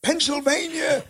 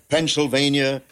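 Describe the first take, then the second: First: High-pitched yelled imitation of an engineer; imitated engineer's yell from across the room; retold yell. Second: Announcer repeating it, higher than usual voice; imitated radio announcer delivery; announcer echo. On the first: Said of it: "the engineer who would yell". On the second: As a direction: repeat it in a raised on-air voice. Announcer repeats engineer's shouted word on air.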